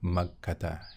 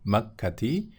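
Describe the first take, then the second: First: The word ends with an a vowel. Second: The word ends with an i vowel. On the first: The speaker calls it right. "tandanya fathah, ... tetapi makkata" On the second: The speaker calls it wrong. "bukan makkati"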